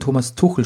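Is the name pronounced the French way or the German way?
German. The name is pronounced the German way. Listeners in France did not understand it. "ich erntete verwirrte Blicke, als ich von Thomas Tuchel sprach"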